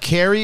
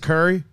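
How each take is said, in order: First: It is said with a general American vowel. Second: It is said with a Baltimore vowel, like curry.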